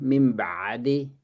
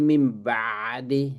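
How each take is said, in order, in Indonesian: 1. Bunyi ain itu mengalir terus dengan napas. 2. Bunyi ain itu mengalir terus dengan napas.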